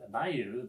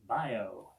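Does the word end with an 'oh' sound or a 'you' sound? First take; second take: you; oh. First: The word ends with a 'you' sound. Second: The word ends with an 'oh' sound. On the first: This is the usual way to say the word. "instead of pronouncing bayou" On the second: This is said so the word rhymes in the song. "they pronounce it bio"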